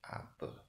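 The final vowel is a weak 'e' sound. This is the Peninsular Malay pronunciation. "the peninsula would pronounce it as apa, even though it's spell apa"

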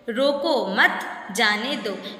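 There is a pause after मत.

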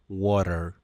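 It is said in an American accent.

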